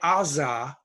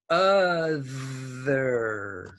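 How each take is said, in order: First: The middle consonant is a z sound. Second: The middle consonant is a voiced th sound. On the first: The speaker calls it wrong. "don't say Aza. That's your old pronunciation" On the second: The speaker calls it right. "Put on your English mouth"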